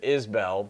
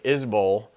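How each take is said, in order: First: The second syllable is a full 'bell' sound. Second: The second syllable is reduced to 'bol'. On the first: The speaker calls it wrong. "I pronounced it Isbell because that's how it's spelled" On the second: The speaker calls it right. "the inflection is like Isbol"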